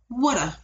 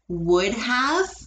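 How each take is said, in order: First: The words blend into one short reduced form. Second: Both words are said fully and separately.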